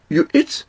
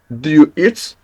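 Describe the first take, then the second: First: "You eat?" rising high on eat; statement words made a question by a high rise on "eat"; rising question tune. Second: Said in the usual way. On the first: Shown as a demonstration. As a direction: lift "eat" up sharply as a question. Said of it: "Just you say". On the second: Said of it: "Instead of you say".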